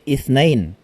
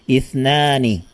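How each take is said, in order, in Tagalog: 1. Nagtatapos ang salita sa tunog na -ain. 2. Nagtatapos ang salita sa tunog na -ani. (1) "mali po kapag sasabihin nating ithnain" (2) "Number two ay ithnani"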